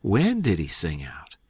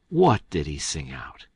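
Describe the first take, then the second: First: "When" stressed, falling at the end. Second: "What" stressed, lower, falling at the end. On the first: Tom questions the keeper, "When" stressed. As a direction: lean on "When" as a mild puzzled question. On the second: Tom presses the keeper, "What" stressed. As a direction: hit "What", low and mildly puzzled. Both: A narrator's reading. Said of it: "in a puzzled-up kind of way".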